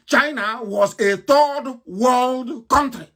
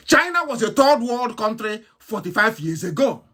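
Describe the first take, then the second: First: China was a third world country, dragged out slowly; slow each word of "third world country" for weight; slow emphatic repetition. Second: Said in the usual way. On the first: Real, not acted. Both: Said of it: "repeated for emphasis".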